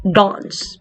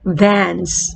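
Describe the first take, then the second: First: Dance with a rounded, back a, said dons; British-style Dance, dons; British pronunciation. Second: Dance with a flat a, said dans; American-style Dance, dans; Dance as dans, front a; American pronunciation. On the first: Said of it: "Parang paloob". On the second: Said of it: "sa American English natin". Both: Shown as a demonstration.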